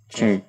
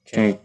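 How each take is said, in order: No difference in how they are said.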